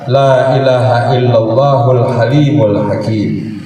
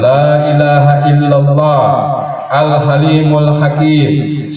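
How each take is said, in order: First: It is recited at a normal, quicker pace. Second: It is recited slowly and deliberately.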